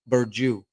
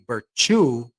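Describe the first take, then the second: First: The middle consonant is a j sound. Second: The middle consonant is a ch sound. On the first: The letter has no tail. "C is um yeah, like a J" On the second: The letter would have the little tail. "then it's like a ch"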